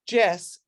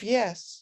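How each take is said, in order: First: The word begins with a j sound. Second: The word begins with a y sound. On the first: The speaker calls it wrong. "calling Y E S Jess" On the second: The speaker calls it right. "instead of yes"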